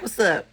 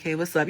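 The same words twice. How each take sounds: First: A light, slightly higher cute phone hello; trying to sound cute. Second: Said in the usual way. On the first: Retold or imitated. Answering her crush's call, lightly put-on cute voice. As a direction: act cute as you pick up. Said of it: "I was trying to sound cute". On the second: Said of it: "I'm like".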